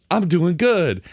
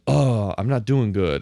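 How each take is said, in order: First: Higher, mock-excited declaration; mock triumph. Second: Slow, mock-glum groan; mock dejection. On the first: Host mocking the racer's instant comeback, mock triumph. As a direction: pipe up in sudden mock triumph. Voices suddenly winning racer, contrast. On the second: Host mocking the racer's flimsy drama, mock dejection. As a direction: sigh it out slowly in mock defeat. Voices losing racer in film.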